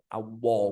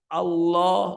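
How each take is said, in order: First: The L is made with rounded lips, like W. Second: The L is made with the tongue tip, unrounded. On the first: The speaker calls it wrong. "Kok pakai bibir" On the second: The speaker calls it right. "Lam itu makhrajnya adalah toroful lisan"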